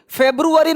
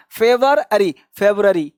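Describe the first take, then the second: First: फेब्रुअरी with a full "roo", higher; higher "feb-ROO-a-ree" for फेब्रुअरी; wrong February with "ru". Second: फेवररी in parts, then quick "fev-ra-ree"; February without "ru". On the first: Teacher rejecting a common form, full "ru" फेब्रुअरी. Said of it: "फेब्रुअरी नहीं". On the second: Teacher modelling for learners, u-less February. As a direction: drop the u: "fe-var-ary", फेब्रुअरी as "fev-rary". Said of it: "क्या बोलना है?". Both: Shown as a demonstration.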